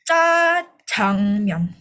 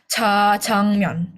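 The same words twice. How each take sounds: First: The first consonant is tense, like a hard c. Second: The first consonant is a plain, soft j. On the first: The speaker calls it right. "Tapi bacanya itu jajangmyeon. ... karena dua J jadi C" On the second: The speaker calls it wrong. "kesalahan umum tuh biasanya bacanya jajangmyeon"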